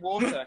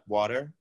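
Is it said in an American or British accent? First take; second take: British; American. First: It is said in a British accent. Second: It is said in an American accent.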